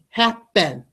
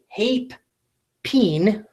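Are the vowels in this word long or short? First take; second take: short; long. First: Both vowels are short sounds. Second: Both vowels are long sounds. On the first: The speaker calls it right. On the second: The speaker calls it wrong.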